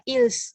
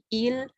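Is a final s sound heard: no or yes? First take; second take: yes; no. First: The final s sound is pronounced. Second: The final s sound is silent. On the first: The speaker calls it wrong. "tidak dibaca ils" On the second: The speaker calls it right. "tapi il"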